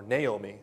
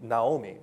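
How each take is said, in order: First: "Naomi" said nay-OH-mee; "Naomi" opening on NAY; alternative pronunciation. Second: "Naomi" said nah-OH-mee; "Naomi" opening on NAH; first pronunciation variant. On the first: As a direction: say "Naomi" with an "ay" in the first syllable. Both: Shown as a demonstration. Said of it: "or Naomi".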